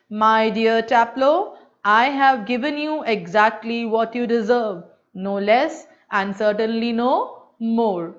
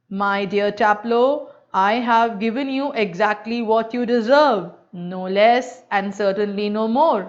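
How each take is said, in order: First: Slow, lightly lowered throaty copy of the teacher; deep teacher imitation. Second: Lightly lowered gentle throaty imitation of the teacher; a hint of the old master's gentle throaty voice; imitating a throaty teacher. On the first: Student repeats the teacher's voice on request, slow and lightly deep. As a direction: repeat the master's words in a gentle deep voice. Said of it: "दोबारा वैसे ही बोल रहे हैं उसी आवाज में, deep में". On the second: Student mimics his teacher's voice to another teacher, lightly throaty. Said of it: "A very gentle, rather throaty voice".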